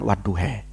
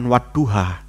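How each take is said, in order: First: The word ends with an 'e' vowel. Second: The word ends with an 'a' vowel. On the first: This reflects a regional dialect. "ada yang mengucapkan wadduha dengan mengucapkan wadduhe" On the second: This is the standard reading. "untuk mengucapkan wadduha"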